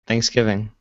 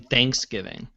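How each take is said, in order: First: The stress is on the second syllable. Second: The stress is on the first syllable. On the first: The speaker calls it right. "how's it supposed to be said?" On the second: The speaker calls it wrong. "they emphasize the thanks"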